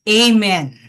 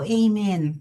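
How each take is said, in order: First: It is said loudly, with conviction. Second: It is said quietly, without conviction.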